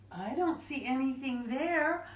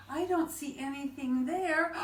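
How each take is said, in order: Both takes have the same delivery.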